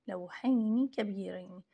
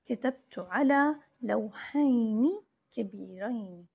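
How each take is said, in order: First: Said in the usual way. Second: Slow dictation. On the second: Shown as a demonstration. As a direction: read the sentence out slowly for the class.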